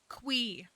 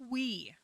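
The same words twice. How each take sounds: First: The name begins with a kw sound. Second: The same.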